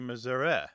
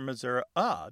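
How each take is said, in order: First: The final vowel is like the 'e' in get. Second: The final vowel is a schwa, like 'uh'.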